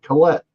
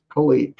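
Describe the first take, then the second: First: Colette said as kuh-LET, pitched up; name variant. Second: Colette said as kuh-LEET; name variant. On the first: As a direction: say Colette with a short "e". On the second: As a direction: say Colette with a long "ee". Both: Real, not acted. Corrects herself between two name pronunciations.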